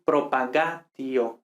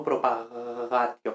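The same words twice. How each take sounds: First: "propagatio" slowly, with a stopped G; slow, firm plosive G in "propagatio"; hard G. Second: "propagatio" with the G almost a Spanish J; softened, lengthened G in "propagatio"; soft drawn-out G. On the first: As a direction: close fully on the G of "propagatio". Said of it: "sino G". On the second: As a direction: slowly drag a loose fricative G in "propagatio". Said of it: "casi una J". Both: Shown as a demonstration.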